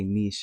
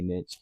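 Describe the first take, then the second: First: The word is said in a more exotic-sounding way. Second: The word is said in a plain, everyday way. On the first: Someone else says it this way. "that sounds a lot more exotic" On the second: This is the speaker's usual way of saying it. "I always say niche"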